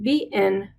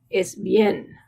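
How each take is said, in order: First: The i and e are split into two syllables. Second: The i and e blend into one syllable. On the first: The speaker calls it wrong. "It's not bien" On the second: The speaker calls it right. "bien is one syllable"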